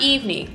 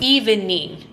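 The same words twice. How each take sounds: First: The word is said with two syllables. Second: The word is said with three syllables. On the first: The time late in the day. The speaker calls it wrong. "not evening" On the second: Making the skin tone even. The speaker calls it right.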